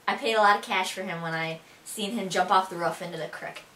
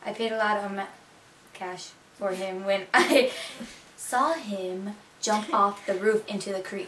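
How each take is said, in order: First: Buffalonian, "roof" short and "creek" as "crick"; Buffalo accent. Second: Miami-accented, long vowels in "roof" and "creek". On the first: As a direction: show off thick Buffalo dialect. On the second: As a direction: translate it carefully into a Miami accent. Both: Shown as a demonstration. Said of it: "Now for some sentences for you guys".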